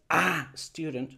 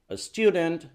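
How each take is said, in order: First: The "a" is long and full. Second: The "a" is short and reduced. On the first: The speaker calls it wrong. "No es para que digas" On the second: The speaker calls it right. "es corto. Haces el dropping"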